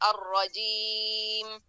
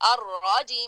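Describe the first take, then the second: First: The voice stays smooth and level on 'ra'. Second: The voice jerks sharply upward on 'ra'. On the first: The speaker calls it right. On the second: The speaker calls it wrong.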